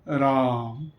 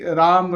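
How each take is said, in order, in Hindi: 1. शब्द गहराई से कहा गया है, छाती से गूँजते हुए। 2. शब्द हल्के से, मुँह से कहा गया है। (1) "हृदय में उसका घर्षण हो ऐसे" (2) "ऐसे नहीं कि राम, राम ऐसे नहीं।"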